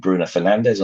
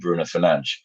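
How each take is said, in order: First: The name is pronounced with English sounds. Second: The name is pronounced with Portuguese sounds. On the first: This is the version for home listeners. "for domestic audiences in England" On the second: This is the version for international viewers. "on the T V around the world"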